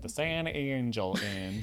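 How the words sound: The name is pronounced with a Texan accent. "if you're saying it like a little bit more Texan"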